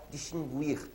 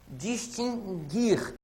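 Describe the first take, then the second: First: Distinguir with the u sounded, gwir; common mispronounced distinguir. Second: Distinguir slowly, the u silent, gir; correct distinguir. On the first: Teacher imitating how many people say it. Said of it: "muita gente por aí fala". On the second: Teacher to class, correcting a common mispronunciation. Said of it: "A pronúncia é distinguir". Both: Shown as a demonstration.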